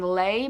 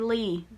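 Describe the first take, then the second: First: The name does not rhyme with see. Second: The name rhymes with see. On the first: The speaker calls it wrong. "I have been saying her name wrong for the longest time" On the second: The speaker calls it right. "It's actually Lee"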